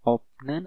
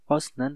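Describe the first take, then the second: First: The first syllable ends with a p sound. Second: The first syllable ends with an s sound. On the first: "bukan opnen" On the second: "atau osnen"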